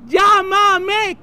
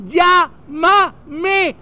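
First: Higher call across a distance. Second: Louder, broken into drawn-out syllables: "Llá-ma-me"; spelled-out call. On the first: Honeymooner to a friend who cannot hear, calling out. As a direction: call it over to someone far away. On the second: Honeymooner repeating for a friend who cannot hear, calling out. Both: Acted.

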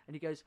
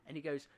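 No difference in how they are said.

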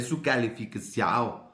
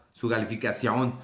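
First: Slow Brazilian Portuguese ending on "calificación", like "-ção"; Brazilian accent. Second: Said in the usual way. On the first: Acted. Host recalls a student wanting her grade, Brazilian accent. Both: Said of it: "como brasileño".

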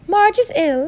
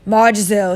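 First: High-pitched, louder voice for the aunt; mistaken character voice. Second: Uncle Vernon. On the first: Narrator gives the uncle's line in the aunt's voice, high. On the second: Uncle informs the aunt of news, loud and gruff. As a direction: announce it firmly at your own pitch. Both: Acted. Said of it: "that's not Aunt Petunia".

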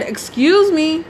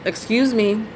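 First: Higher, slow, drawn-out "Excuse me" with attitude. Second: Polite. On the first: To the driver still ranting on the phone, sharp with attitude. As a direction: stretch "Excuse me" out, fed up and pointed. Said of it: "I had to say with an attitude". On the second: Polite to the cab driver on the phone, gently. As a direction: ask nicely, not wanting to interrupt. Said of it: "So I said politely". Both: Retold or imitated.

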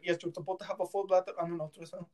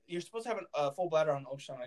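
First: Quick, badly faked Indian accent; horrible Indian accent. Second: Said in the usual way. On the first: Doctor correcting a patient in the ultrasound room, bad Indian accent. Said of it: "That was a horrible Indian accent". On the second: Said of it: "He's like".

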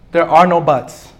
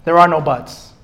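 The two takes are said the same way.

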